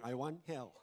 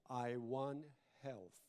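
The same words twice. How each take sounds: First: The word health is pronounced sloppily and unclearly. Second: The word health is pronounced carefully and clearly. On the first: The speaker calls it wrong. "Otherwise you'll be saying" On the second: The speaker calls it right. "Pronounce properly"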